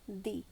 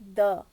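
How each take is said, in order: First: It is the form used before vowel sounds. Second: It is the form used before consonant sounds. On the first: "if the word starts with the sound of a vowel, you pronounce the as the" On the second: "when the word starts with the sound of a consonant, the before that is pronounced as the"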